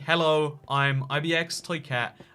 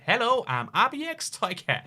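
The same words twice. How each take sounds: First: It is said in the speaker's normal accent. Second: It is said in an imitated Chinese accent. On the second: "I'm going to read this out in the accent I'm tr truly imagining"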